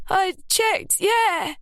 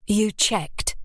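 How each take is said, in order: First: Insistent. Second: Said in the usual way. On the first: A narrator's reading. Ruby insisting to doubtful Lily she checked. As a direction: hammer it home.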